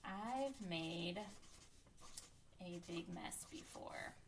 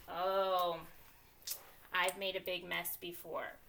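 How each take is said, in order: First: Soft, very drawn-out words with gaps; slow, quiet self-dictation; writing aloud. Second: "oh" of recognition, then settling; mild acted realization; thinking voice realization. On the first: Real, not acted. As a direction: murmur each word as you write it. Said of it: "my thinking voice is going to just write". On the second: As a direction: let a memory pop in. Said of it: "my thinking voice is popping in and saying".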